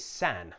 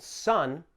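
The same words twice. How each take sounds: First: "san" with the short A of cat; vowel contrast, san. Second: "sun" with the short UH vowel; vowel contrast, sun. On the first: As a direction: say san with a flat A vowel, as in man. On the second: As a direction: say sun with an open uh, as in fun. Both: Shown as a demonstration. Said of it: "Notice the difference in the vowel sound".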